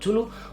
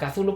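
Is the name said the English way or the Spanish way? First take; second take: Spanish; English. First: The name is pronounced the Spanish way. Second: The name is pronounced the English way.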